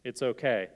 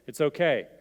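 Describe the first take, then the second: First: Said in the usual way. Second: Firmer comfort. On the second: Shown as a demonstration. Pastor voicing a comforter's words, louder and firmer. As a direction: say it again louder, more insistent. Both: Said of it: "we're gonna get through this".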